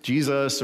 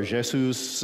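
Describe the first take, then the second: First: Said in the usual way. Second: "Jesus" said in a non-English way; alternative pronunciation. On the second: Shown as a demonstration. Preacher trying out ways to pronounce the name, alternative pronunciation. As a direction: say "Jesus" as a foreign-language name. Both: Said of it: "the right way to pronounce the name".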